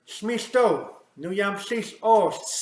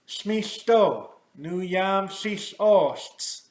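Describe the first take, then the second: First: The phrase is spoken at a normal, quick pace. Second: The phrase is spoken slowly and deliberately. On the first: "at the normal normal pace" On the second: "I'll say it slowly"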